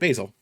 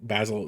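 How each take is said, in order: First: The name is said in an American way. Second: The name is said in a British way. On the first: "I'm American... So they always say it Basil" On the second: "just mentally that's how I pronounced it for the longest time"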